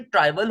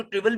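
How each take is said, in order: First: "ट्राइवल", first syllable rhyming with "try"; TRY-vul pronunciation. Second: "ट्रिवल", first syllable like "triv" in trivia; TRIV-ul pronunciation. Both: Shown as a demonstration. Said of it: "इसको ट्रिवल भी कहते हैं".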